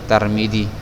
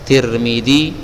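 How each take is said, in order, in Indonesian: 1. Suku kata pertama memakai a, suku kata kedua memakai i. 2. Dua suku kata pertama memakai vokal i. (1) "orang-orang kita sering membaca Tarmidzi" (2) "Kalau ti, tirmi, Tirmidzi"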